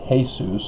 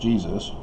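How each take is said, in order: First: The word begins with an H sound. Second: The word begins with a J sound. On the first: This is the Spanish pronunciation. "Spanish, for example, went a completely different direction and turned the J into an H" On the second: This is the other European pronunciation. "instead of"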